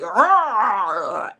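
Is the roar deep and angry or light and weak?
deep. The roar is deep and angry.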